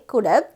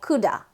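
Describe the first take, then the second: First: The word 'have' is pronounced in full. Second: The word 'have' is reduced to a weak 'a'.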